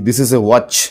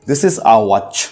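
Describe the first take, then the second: First: The article is said with an 'eh' vowel. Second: The article is said with an 'ah' vowel. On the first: "আমি যদি বলি" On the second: "ইংরেজরা কিরকম ভাবে বলবে?"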